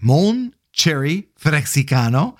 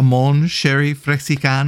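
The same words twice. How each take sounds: First: Cherry begins with a hard ch sound. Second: Cherry begins with a soft sh sound. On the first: The speaker calls it right. "There you go" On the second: The speaker calls it wrong. "Not sherry"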